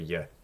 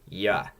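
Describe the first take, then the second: First: The vowel is weakened and less distinct. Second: The vowel is said full and clear. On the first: The syllable is unstressed. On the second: The syllable is stressed.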